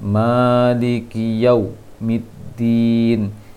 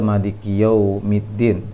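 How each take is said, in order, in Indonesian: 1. Bunyi waw-nya ditahan terlalu kuat. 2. Bunyi waw-nya lemah dan kurang jelas. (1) "terlalu ketat di wawnya" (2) "kurang ke wawnya"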